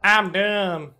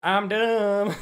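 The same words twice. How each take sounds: First: Self-mocking. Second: Silly voice. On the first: Real, not acted. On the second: Pretend.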